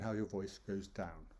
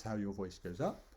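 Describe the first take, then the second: First: "down" said on a falling tune; falling intonation. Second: "up" said on a rising tune; rising intonation. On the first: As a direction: let the pitch drop onto "down". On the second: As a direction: voice swoops upward on "up". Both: Shown as a demonstration. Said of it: "Using your voice like that".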